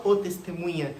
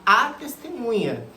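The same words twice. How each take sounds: First: Quick dismissal, leaning on "o"; "o" marked as the wrong word, said briskly; wrong-article example. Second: "a" held clearly as the right word; correct-article example. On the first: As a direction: stress on "o" before "testemunha". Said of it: "Você não fala o testemunha". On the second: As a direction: stress on "a" before "testemunha". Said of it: "você fala a testemunha". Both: Shown as a demonstration.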